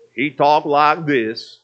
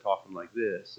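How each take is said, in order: First: Slow, drawn-out, louder play-character voice; weird character voice. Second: Low, soft, tired delivery; dry and boring. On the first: Preacher showing how his play character talked, weird voice. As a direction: put on a weird cartoonish stage voice, stretched out. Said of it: "that weird voice that I can't do". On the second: Actor tired of his character voice, dry and boring. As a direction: let the character voice sag into dull, tired talk. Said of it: "it just got dry and boring". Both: Shown as a demonstration.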